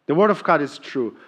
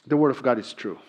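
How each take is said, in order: Both takes have the same delivery.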